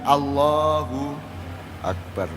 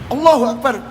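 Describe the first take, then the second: First: It is said calmly and inwardly, with reverence. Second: It is said aggressively, like a challenge to fight. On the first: The speaker is inwardly in awe of God's greatness. The speaker calls it right. "Allah mengajarkan bagaimana?" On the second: The speaker is picking a fight. The speaker calls it wrong. "Ini nantang gelut aja apa ini?"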